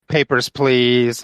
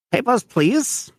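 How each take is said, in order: First: Mock Nazi guard. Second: High, slow, put-on German guard voice. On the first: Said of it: "he would say things like". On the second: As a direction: bark it like a stiff checkpoint guard.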